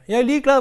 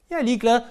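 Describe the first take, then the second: First: "Jeg er ligeglad" louder, with heavy weight on "ligeglad"; stronger repeat. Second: Said in the usual way. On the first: Shown as a demonstration. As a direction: hit "ligeglad" hard as the repeat builds.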